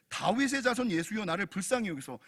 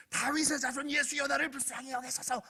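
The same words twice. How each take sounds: First: Said in the usual way. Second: Strained, high-pitched cry of a blind beggar; squeezed, pleading mock shout; mock yelling. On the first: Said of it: "소리를 지르는 거예요". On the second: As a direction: imitate desperate yelling without full volume. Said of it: "냅다 소리를 지르는 거예요".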